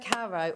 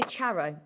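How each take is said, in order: First: The name begins with a hard k sound. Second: The name begins with a ch sound. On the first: This is how the other person says it. "you say Caro" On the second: This is how the speaker says it. "I say Charo"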